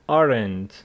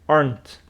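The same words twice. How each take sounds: First: The word is said in two syllables. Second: The word is said in one syllable. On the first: The speaker calls it wrong. "pronounced wrong in two syllables" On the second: The speaker calls it right. "It is one syllable"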